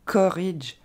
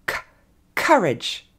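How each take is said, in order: First: COURAGE without a puff of air on the K; unaspirated wrong version. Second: Breath burst on the first sound of COURAGE; aspirated English plosive. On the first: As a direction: say COURAGE as "korridge" with a plain French K. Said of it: "Donc pas". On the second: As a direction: release air on the C, then COURAGE as "KHUH-redge". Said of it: "on a une relâchée d'air en anglais". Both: Shown as a demonstration.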